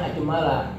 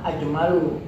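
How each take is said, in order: First: "ajmala" ending in an a vowel; correct case ending. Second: "ajmalu" ending in an u vowel; wrong case ending. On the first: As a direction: say "ajmala" with final -a. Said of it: "mestinya ajmala". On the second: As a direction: say "ajmalu" with final -u. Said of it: "i'rabnya salah". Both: Shown as a demonstration.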